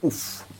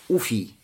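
First: The word ends on a bare f sound. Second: The word ends with an ee vowel. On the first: "сказать с сукуном на конце" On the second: "Можно сказать с дамой в начале и с я"

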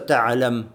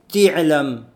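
First: The first vowel of the word is a. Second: The first vowel of the word is i. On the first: This is the usual reading. "вместо Та'лям" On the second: This is how one tribe read it in its dialect. "Аль-Асади, он читал Ти'лямун"

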